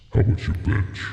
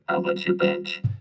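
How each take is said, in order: First: It is said in a deep monster voice. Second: It is said in a plainer voice.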